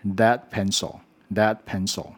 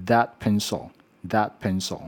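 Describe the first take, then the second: First: "that" with the tongue kept behind the teeth, like "dat"; "that pencil" with a d-like sound replacing th; wrong TH. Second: "that" with tongue tip between the teeth; careful dental th at the start of "that"; correct TH. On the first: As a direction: demonstrate the learner's mistake, no dental th in "that". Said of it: "错误的发音就会变成". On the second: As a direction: demonstrate "that pencil" with a true voiced th. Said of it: "正确的发音". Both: Shown as a demonstration.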